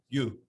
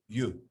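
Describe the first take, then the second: Both takes have the same delivery.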